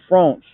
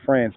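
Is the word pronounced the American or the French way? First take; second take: French; American. First: It is said with a French pronunciation. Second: It is said with an American pronunciation. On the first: "in France, that's how you pronounce it" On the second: "in the United States we say France"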